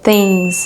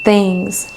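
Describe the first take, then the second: First: It starts with the 'th' sound. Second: It starts with the 'th' sound.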